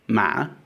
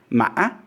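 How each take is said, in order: First: The tone is smooth, without a glottal catch. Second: The tone rises, dips, catches, then rises sharply. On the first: "this is the questioning tone" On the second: "it comes up, it goes down, there's a glottal stop, and then it rises sharply"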